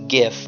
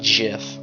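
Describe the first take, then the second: First: The word begins with a hard g sound. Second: The word begins with a j sound. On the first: "it looks like it would be pronounced GIF" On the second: "not GIF. All right, it'd be with a J"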